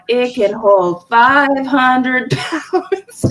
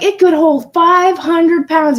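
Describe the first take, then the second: First: Very drawn-out mock boast, ending in laughter; mocking catchphrase. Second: Higher, slow confident claim; retold boast. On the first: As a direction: stretch the boast out as a running joke. Their mocking joke of the boast. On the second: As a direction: imitate a husband's boast, pitched up. Retells husband's boast.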